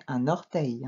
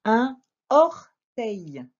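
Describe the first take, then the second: First: "un orteil" linked as "un-norteil"; "un orteil" run together with a linking N; with liaison. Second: "Un orteil" slowly split, no N linking the words; "Un orteil" in slow, separated, louder syllables; without liaison. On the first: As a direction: sound the N of "un" into "orteil". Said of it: "on ferait la liaison, normalement". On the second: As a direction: dictate "Un orteil" with a clean break after "Un". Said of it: "on ferait la liaison". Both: Shown as a demonstration.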